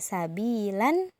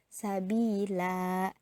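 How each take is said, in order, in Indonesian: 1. Kata itu berakhir dengan vokal pendek dan n. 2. Kata itu berakhir dengan vokal yang dipanjangkan, tanpa n. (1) "Yang biasanya dibaca sabilan" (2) "karena dia berhenti di sana, maka bacanya sabila"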